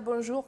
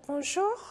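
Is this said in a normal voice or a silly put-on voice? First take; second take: normal; silly. First: It is said in her ordinary natural voice. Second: It is said in a silly put-on voice. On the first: "au lieu de dire bonjour comme ça" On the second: "je fais un peu l'air idiot"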